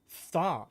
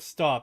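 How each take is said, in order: First: The word is said with a heavy lisp. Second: The word is said plainly without a lisp. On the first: "it'd be like stop" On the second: "instead of stop"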